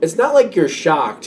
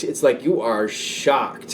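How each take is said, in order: First: Said in the usual way. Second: Slow and soft, leaning on "you are"; "are" stretched and weighted, the whole line slow; stress on are. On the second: Shown as a demonstration. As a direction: draw out "you are shocked" to make it land.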